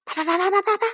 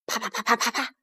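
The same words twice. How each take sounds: First: Rapid, high, light pattering; high patter of blows. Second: Quick, light, quiet pattering; soft patter of blows. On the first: Storyteller imitating the fighters' blows, high light patter. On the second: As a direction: imitate distant blows very softly. Imitated blows, first round. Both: A narrator's reading.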